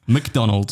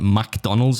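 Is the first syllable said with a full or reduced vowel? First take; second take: reduced; full. First: The first syllable has no 'a' vowel. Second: The first syllable has a full 'a' vowel. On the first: The speaker calls it right. "There's no A in there" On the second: The speaker calls it wrong. "you call it McDonald's. Like there's an A in there"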